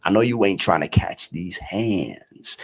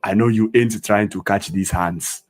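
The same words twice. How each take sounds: First: "hands" with a long, drawn-out "ay" vowel; American "hands". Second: Every word fully sounded, "hands" with an open "ah"; unslanged pronunciation. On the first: Teacher showing his way of saying "hands", vowel raised and stretched. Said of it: "The way I say hands". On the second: Teacher showing what he doesn't say, "hands" as "hahnds". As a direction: say "hands" like "hahnts", native African accent. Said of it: "I don't say". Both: Shown as a demonstration.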